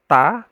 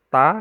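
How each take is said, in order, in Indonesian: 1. Ta itu punya aliran napas yang ringan dan lembut. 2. Ta itu punya aliran napas yang ringan dan lembut.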